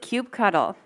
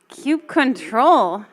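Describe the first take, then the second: First: The ending is said as the word cuddle. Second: The ending is said as the word control. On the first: "who pronounces it cube cuddle?" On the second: "any other pronunciations?"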